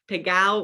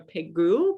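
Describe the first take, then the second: First: It is said with a Provençal pronunciation. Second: It is said with a standard French pronunciation. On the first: "Pegao is kind of the Provençal pronunciation" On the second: "Pegu is more of a French pronunciation of the estate"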